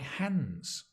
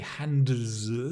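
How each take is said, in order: First: The D sound is dropped before the S. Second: The D sound is pronounced before the S. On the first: The speaker calls it right. "The D sound disappears" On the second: The speaker calls it wrong. "We don't say hands. It's impossible"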